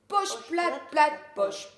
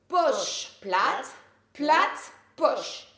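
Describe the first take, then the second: First: The phrase is said at a fast pace. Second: The phrase is said at a slow pace.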